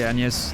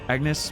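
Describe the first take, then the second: First: The name is pronounced the French way. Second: The name is pronounced the English way. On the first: "like in French"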